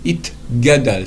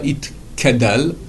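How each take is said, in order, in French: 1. La consonne du milieu est un son g. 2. La consonne du milieu est un son k. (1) "c'est un gué" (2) "pas Itkadal, erreur euh, commune"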